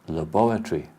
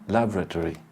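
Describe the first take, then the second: First: The word is said in a British accent. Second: The word is said in an American accent. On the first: "In English, we say" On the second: "in American, they say"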